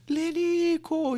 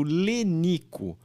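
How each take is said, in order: First: Very high, loud, drawn-out name; mock sportscaster yell; football commentator's goal call. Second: Said in the usual way. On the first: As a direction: imitate a commentator stretching out the scorer's name. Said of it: "E aí o narrador".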